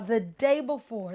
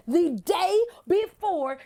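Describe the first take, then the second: First: Said in the usual way. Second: "day before" hit hard, pitch lifted on "day"; high, emphatic stress on "day"; emphatic repeat. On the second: Real, not acted. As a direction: punch out "the day before", each word set apart. Repeats it for emphasis after "literally.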